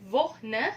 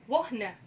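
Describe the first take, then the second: The two takes are said the same way.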